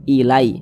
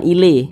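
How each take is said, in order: First: The vowel is a soft 'ai' glide. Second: The vowel is a plain 'e' sound. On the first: The speaker calls it right. "dilunakkan mudah" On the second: The speaker calls it wrong. "jangan sampai condong ke e"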